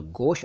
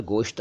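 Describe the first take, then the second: First: गोश ending on sh; no final T. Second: गोश्त ending in sht; with final T. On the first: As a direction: say गोश as gosh, no t. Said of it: "तो गोश अलग है". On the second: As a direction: say गोश्त as gosht, t sounded. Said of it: "गोश्त अलग है". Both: Shown as a demonstration.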